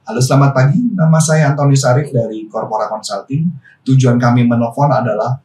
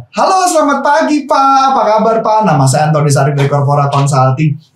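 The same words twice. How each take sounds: First: Formal sales call read, a bit lower and stiff; stiffly formal phone opening. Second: Friendly relaxed greeting. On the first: Coach mocking a stiff corporate phone call, formal tone. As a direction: sound like a rigid corporate caller. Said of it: "jadi kayak formal banget". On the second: Coach demoing a relaxed friendly phone opening, warm. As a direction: greet him like an old friend. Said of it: "dengan nada intonasi yang berbeda". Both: Shown as a demonstration.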